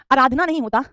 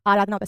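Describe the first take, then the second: First: आराधना with short a at the start; wrong pronunciation. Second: आराधना with long aa at the start; correct pronunciation. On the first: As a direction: say आराधना as "a-raadhna". (गलत उच्चारण, आराधना को अराधना बोलें) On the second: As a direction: say आराधना as "aa-raadhna". (सही उच्चारण, आराधना में लंबा आ) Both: Shown as a demonstration. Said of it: "same नहीं है".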